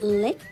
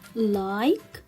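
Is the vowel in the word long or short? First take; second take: short; long. First: The vowel is a short i sound. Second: The vowel is a long i sound. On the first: The speaker calls it wrong. "Can I say it lick? No" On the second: The speaker calls it right. "I pronounce the letter I as I"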